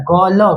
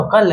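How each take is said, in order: First: कौलो said wrongly with a full vowel, kau-lo; कौलो as two full syllables, the mistaken way; wrong reading. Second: कल said as one cluster, half k into l, kl; कल with a clipped half k gliding straight into l; correct blend. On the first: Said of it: "इसका उच्चारण नहीं होता है कौलो". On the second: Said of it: "उच्चारण आधा क से". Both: Shown as a demonstration.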